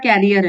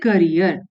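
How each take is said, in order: First: The first syllable sounds like 'care'. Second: The first syllable is a short 'kuh' sound. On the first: It sounds like a different word with another meaning. The speaker calls it wrong. "नहीं" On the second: It means a profession. The speaker calls it right. "उसको बोलते हैं करियर"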